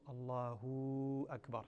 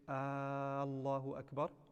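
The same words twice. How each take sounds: First: The final hu of Allahu is drawn out. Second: The first vowel of Allahu is drawn out. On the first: "do not lengthen the hu" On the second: "To lengthen the first alif becomes istifham"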